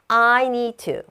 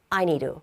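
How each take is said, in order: First: The t in to is a clear t. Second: The t in to is a soft flap. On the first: "앞에 있는 d는 조금 약하게 발음합니다" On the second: "디귿과 리을 사이의 소리로 발음을 합니다"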